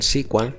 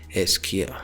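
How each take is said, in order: First: It is said as one word, like sequel. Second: It is said as three separate letters. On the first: It follows the original name of the language. The speaker calls it wrong. "muchas personas lo llaman S Q L por costumbre, ya que básicamente en su inicio nació con ese nombre" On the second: It follows the current name of the language. The speaker calls it right. "lo correcto sería decir S Q L"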